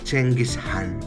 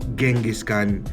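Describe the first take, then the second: First: The name begins with a ch sound. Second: The name begins with a j sound. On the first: The speaker calls it right. "Chenghis Han yung pagkakabanggit" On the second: The speaker calls it wrong. "it's not pronounced as Genghis Khan"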